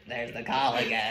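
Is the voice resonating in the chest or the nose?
nose. It is said with a nasal voice.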